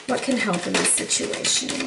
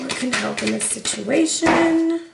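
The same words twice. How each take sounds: First: Soft, low murmur to the cards; hushed question. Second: Said in the usual way. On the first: Real, not acted. Reader softly asks the cards for help, hushed. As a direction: ask it under your breath.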